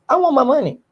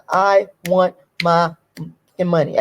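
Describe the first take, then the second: First: "want" punched high with a falling finish; higher emphatic "I want my money"; stress on want. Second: Slow, drawn-out demand, word by word; deliberate slow demand; slow insistence. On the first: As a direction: hit "want" hard and high. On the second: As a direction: spell out the demand slowly. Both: Real, not acted. Demanding what she's owed.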